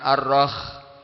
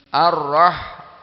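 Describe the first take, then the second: First: It ends with a raspy, scraping kh sound. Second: It ends with a soft, breathy h sound. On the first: The speaker calls it wrong. "bukan ar-rakh" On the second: The speaker calls it right. "Ar-rah hak"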